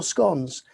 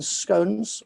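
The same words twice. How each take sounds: First: "scones" with a short O, rhyming with "gone"; "scones" with the short vowel of "on"; short-O pronunciation. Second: "scones" with a long O, rhyming with "cones"; "scones" said as "skohnz"; long-O pronunciation. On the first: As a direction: say "scones" as "skonz". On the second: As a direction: say "scones" to rhyme with "stones". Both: Shown as a demonstration. Gives two pronunciations of scones.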